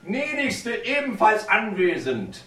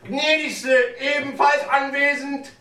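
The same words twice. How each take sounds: First: The phrase is said at normal volume. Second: The phrase is said louder.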